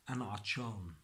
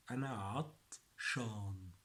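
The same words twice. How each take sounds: First: Said in the usual way. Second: أنا عطشان with عطشان split into "at" and "shaan"; syllable-by-syllable demo. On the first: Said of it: "This Egyptian dialect". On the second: Shown as a demonstration. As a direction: pause inside عطشان and draw out "shaan". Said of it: "This is for Egyptian".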